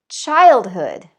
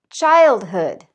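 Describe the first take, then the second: Both takes have the same delivery.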